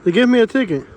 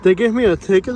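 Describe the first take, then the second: First: Ticket said high and loud, falling flat; stunned disbelief. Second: "ticket?" rising, loud and high; incredulous question. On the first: Vlogger reading his ticket to the camera, loud disbelief. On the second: Vlogger repeating the news to viewers, incredulous rise. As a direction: ask it like he can't believe it. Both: Real, not acted.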